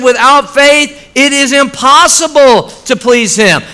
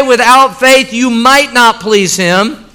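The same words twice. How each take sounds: First: "Without faith" slowed, "impossible" leaned on hard; emphatic. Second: Said in the usual way. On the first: Shown as a demonstration. Preacher stressing the real verse to his church, slow and emphatic. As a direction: land firmly on "impossible" with a falling close. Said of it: "It said". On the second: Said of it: "It did not say".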